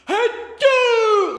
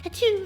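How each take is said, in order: First: The sneeze is loud and obnoxious. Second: The sneeze is soft and dainty.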